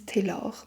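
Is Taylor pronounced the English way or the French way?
French. It is pronounced with French sounds. "I'm assuming you pronounce it Lise Taylor"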